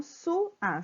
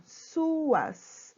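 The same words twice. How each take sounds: First: Su-a, slow with a gap between syllables; split into syllables. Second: Said in the usual way. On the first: Shown as a demonstration. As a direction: sound out su-a slowly for pupils. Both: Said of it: "Vamos separar a sílaba".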